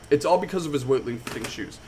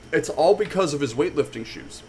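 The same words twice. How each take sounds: The two takes are said the same way.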